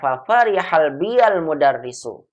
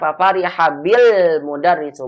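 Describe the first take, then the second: First: The ya is voiced with an a vowel: biyal. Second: The ya is silent and linked: bil. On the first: "domir ya ini hukumnya sangat dianjurkan untuk diubah dari sukun menjadi fathah" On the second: "saya sukun aja"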